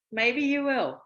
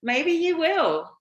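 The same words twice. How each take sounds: First: Said in the usual way. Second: Higher and louder, slow teasing lilt; playful tease. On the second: Real, not acted. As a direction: tease him with a sing-song promise. Teasing reply about guest spot.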